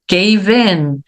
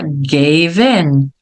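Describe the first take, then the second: First: The two words are said separately. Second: The v runs straight into the next vowel.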